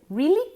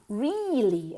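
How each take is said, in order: First: The first vowel is short. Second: The first vowel is long. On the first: The speaker calls it wrong. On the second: The speaker calls it right. "Es con una I larga"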